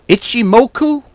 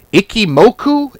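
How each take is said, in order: First: "Ichimoku" said properly, with the ch sound, pitched higher; corrected pronunciation. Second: Fumbles Ichimoku as "Ikimoku", with a k sound; fumbled pronunciation. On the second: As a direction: stumbles over the word, saying "Ikimoku". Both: Shown as a demonstration. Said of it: "I can't even say it right".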